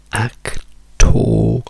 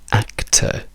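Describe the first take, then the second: First: The ending has a long, strong O vowel. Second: The ending is a plain schwa with no R. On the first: The speaker calls it wrong. "Questo sarebbe un suono lungo, quindi un suono forte" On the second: The speaker calls it right. "diciamo semplicemente act"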